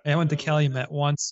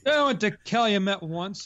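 First: It is said in a natural speaking voice. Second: It is said in a put-on character voice.

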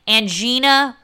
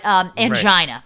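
First: The word does not rhyme with vagina. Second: The word rhymes with vagina. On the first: The speaker calls it wrong. "not angina" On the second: The speaker calls it right. "but angina"

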